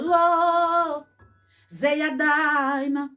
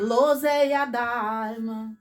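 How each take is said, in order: First: There is a pause after the first word. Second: It is said in one breath, without pausing. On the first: The speaker calls it wrong. "Eu não posso falar assim, ó. ... Não pode" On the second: The speaker calls it right. "Tem que dizer lozeia daima"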